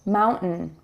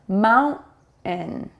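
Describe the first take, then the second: First: It is said quickly at a natural pace. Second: It is said slowly and carefully. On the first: "when we speak more naturally" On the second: "I'm going to say it slower"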